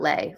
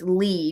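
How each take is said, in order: First: The name ends with an 'ay' vowel. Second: The name ends with an 'ee' vowel. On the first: The speaker calls it wrong. "not Lay" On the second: The speaker calls it right. "It's Lee"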